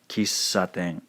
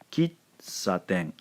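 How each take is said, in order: First: The middle consonant is a long held s. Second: The middle consonant is a short ts sound. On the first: The speaker calls it right. "hover on this sound for just a second" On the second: The speaker calls it wrong. "That is not how they pronounce it in Japanese"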